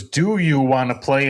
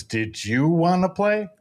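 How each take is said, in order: First: "Do you wanna play?" with "Do" rising as a question. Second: "Did you wanna play?" slower, with "Did" replacing "Do"; slower reply. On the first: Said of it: "in the question". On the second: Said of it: "and the response is". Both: Retold or imitated.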